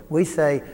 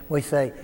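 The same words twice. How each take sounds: No difference in how they are said.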